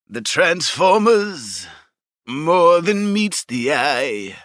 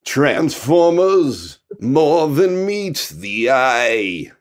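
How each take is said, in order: First: Slow crooning [name] style; [name] impression. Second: Very slow crooning [name]; [name] impression. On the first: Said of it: "I'm gonna give them my [name]". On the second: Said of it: "He sounds like fucking [name]".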